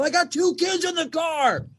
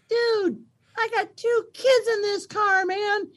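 First: Higher, indignant raised voice; yelling at driver. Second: Put-on very high tiny-kid voice copying dad; three-year-old daughter. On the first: Retold or imitated. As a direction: shout it out the car window. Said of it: "and I go". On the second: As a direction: squeak it like a toddler parroting her father. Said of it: "who's three, go".

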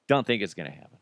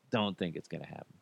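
First: Said in the usual way. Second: Low, quick, much softer mutter; a quick muttered repeat to yourself; muttered aside. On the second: Acted. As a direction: mumble it under your breath fast. Repeats the line, second muttered.

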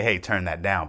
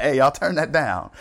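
First: Said in the usual way. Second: Higher, louder mock order; mock calling out. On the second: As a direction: call it out to a noisy room, half-joking. Acts out telling players off.

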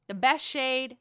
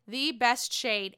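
First: Said in the usual way. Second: "the best shade" stretched out slowly, word by word; slow, savoring emphasis on "the best shade"; emphatic repeat. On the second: Real, not acted. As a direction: draw out "the" before "best shade". Repeats phrase, slowed for emphasis.

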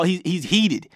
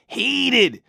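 First: Said in the usual way. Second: "heated" repeated, pitched up high; emphatic repeat. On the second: Shown as a demonstration. Host hammering home that LeBron is angry, "heated" pitched high. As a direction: lean into "heated" the second time, lifting it high.

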